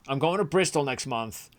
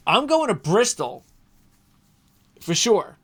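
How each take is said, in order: First: Said in the usual way. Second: High, loud burst of eagerness; pumped announcement; excited. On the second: Real, not acted. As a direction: blurt it out, thrilled to be going. Eager plan for Bristol trip.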